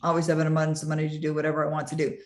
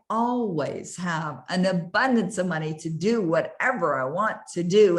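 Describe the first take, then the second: First: It is said flatly, without any emotion. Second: It is said warmly, with strong felt emotion. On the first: The speaker does not believe or feel it. The speaker calls it wrong. "with no conviction, with no emotion" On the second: The speaker truly believes and feels it. The speaker calls it right. "with emotion and you feel it"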